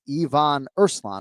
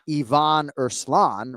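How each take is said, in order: First: The stress falls on the first syllable of each name. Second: The stress falls on later syllables of the names. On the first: The speaker calls it right. "He emphasizes the first syllable in both names" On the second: The speaker calls it wrong. "So it's not"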